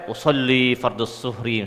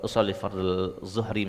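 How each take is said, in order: First: The phrase is said loudly, carrying far. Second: The phrase is said quietly, barely audible. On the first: People at the back can hear it. The speaker calls it wrong. "Jangan sampai ... sampai ke belakang kedengaran" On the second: Only the one praying can hear it. The speaker calls it right. "Jadi cukup cukup kita saja"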